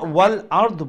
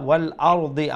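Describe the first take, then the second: First: The word ends on a consonant, no final vowel. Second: The word ends with a short i vowel. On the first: This form is used only when stopping there. The speaker calls it wrong. "ওয়াল আরদ বলবেন না" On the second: This form is used when reading on without stopping. The speaker calls it right. "জেরটা উচ্চারণ করতে হবে"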